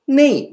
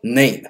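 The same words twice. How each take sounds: First: The vowel is said with a high, raised pitch. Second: The vowel is said with a low, lowered pitch. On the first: The speaker calls it wrong. "name じゃなくて" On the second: The speaker calls it right. "下げて下げて言う"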